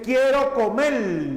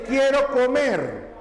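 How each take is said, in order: First: "comer" with the final R turned to L, "comel"; Central American R. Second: Said in the usual way. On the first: Shown as a demonstration. Teacher shows students the Central American variant, "comer" ending in L. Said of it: "En Centroamérica no pronuncian la R". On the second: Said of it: "no pronuncian la R como lo hacen en América del Sur".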